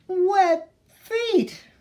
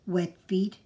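First: Put-on high, loud childish wail. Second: Grandpa asking gently. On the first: Baby duck complains about her wet feet, wailing high and loud. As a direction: let the wail rise up and out. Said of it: "wailed Baby". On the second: Acted. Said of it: "he asked".

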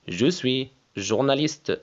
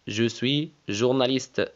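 The two takes are said the same way.

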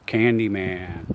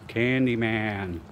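First: Said in the usual way. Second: Slow, drawn-out, softer Candyman; spooky slow summons. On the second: Shown as a demonstration. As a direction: call Candyman slowly like a ritual. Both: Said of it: "So I'm gonna do Candyman".

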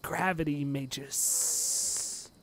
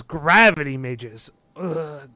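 First: Very slow, softer, long hissed ending; drawn-out sibilant grumble; glaring hiss. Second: Loud, slow disgusted complaint; irritated, emphatic grousing; glaring grumble. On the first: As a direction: draw out the final S in disdain. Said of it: "he would be like". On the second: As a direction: say it with a glare and an ugh. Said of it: "Ugoth kinda glares". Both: Acted.

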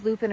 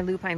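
First: "lupin" ending like "pin"; short final vowel. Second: "lupine" ending like "pine"; long final vowel. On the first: Hiker unsure of the flower's name, "lupin" with short i. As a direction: say "lupin" with a short i in the second syllable. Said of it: "we don't know if it's lupin or lupine". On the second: Hiker giving both friends' version, "lupine" with long i. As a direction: say "lupine" with a long i in the second syllable. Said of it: "we both say lupine". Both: Shown as a demonstration.

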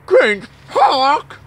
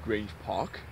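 First: High, loud disbelieving cry; hammed-up outrage; loud incredulous. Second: Low quiet questioning mumble; quiet puzzled echo; puzzled murmur. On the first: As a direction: shout it back in mock shock. Second take, loud high incredulous. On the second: Acted. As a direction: mutter it in disbelief. First take, quiet puzzled.

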